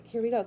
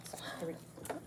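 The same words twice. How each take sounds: First: Said in the usual way. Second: Whispered. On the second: Shown as a demonstration. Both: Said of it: "I should act cringy".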